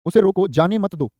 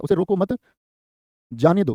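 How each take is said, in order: First: Slow, with a clear break after "उसे रोको", then "जाने मत दो"; pause after "रोको". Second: "उसे रोको मत" rising, long break, then "जाने दो" falling; pause after "मत". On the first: Teacher dictating an example to students, slowly pausing after "रोको". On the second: Teacher showing how punctuation changes meaning, pausing after "मत". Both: Shown as a demonstration. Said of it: "विराम चिन्ह अलग होगा".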